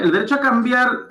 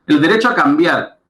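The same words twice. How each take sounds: First: "cambiar" lifted much higher at normal loudness; second reading, higher with "cambiar" stressed; higher repeat. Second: "derecho" said louder with a falling close; first reading, louder with "derecho" stressed; louder first take. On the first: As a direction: repeat "El derecho a cambiar" pitched well up. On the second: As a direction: announce "El derecho a cambiar" firmly and louder. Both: Shown as a demonstration.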